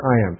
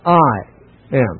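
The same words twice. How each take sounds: First: Said in the usual way. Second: "I" set apart by a pause before "am"; "I" stressed, pause, then "am."; emphatic I. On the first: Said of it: "Without the ego, it would still mean". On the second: Shown as a demonstration. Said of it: "it's just emphatic".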